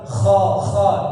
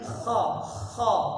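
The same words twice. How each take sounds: First: The kh sound is harsh, gargled and vibrating. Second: The kh sound is light, without vibration. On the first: The speaker calls it wrong. "bukan sampai bergetar kha kha. Itu kurang tepat" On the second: The speaker calls it right. "tapi dia sekedar kha kha"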